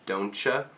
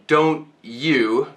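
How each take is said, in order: First: The word 'you' is reduced to 'ya'. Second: The word 'you' is said fully and clearly.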